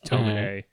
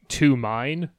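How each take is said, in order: First: The name is said with its Japanese pronunciation. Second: The name sounds like the English words 'to mine'. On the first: The speaker calls it right. "it's a Japanese name, so it's when he pronounced Tomine" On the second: The speaker calls it wrong. "Tomine is written like to mine"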